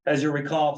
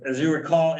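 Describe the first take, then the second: First: Winded, catching his breath; short of breath after rushing in. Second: Said in the usual way. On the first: Real, not acted. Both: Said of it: "sorry, I'm catching my breath".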